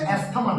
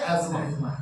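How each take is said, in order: First: The middle is pronounced with an 's-th' sound. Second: The middle is pronounced with a 'z' sound. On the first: The speaker calls it wrong. "উচ্চারণটা হচ্ছে অ্যাস্থমা না" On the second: The speaker calls it right. "উচ্চারণটা হচ্ছে অ্যাজমা"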